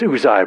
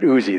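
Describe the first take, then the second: First: The name ends with an 'eye' sound. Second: The name ends with an 'ee' sound. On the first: "They say it's Uzai" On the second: "I pronounce it Uzi"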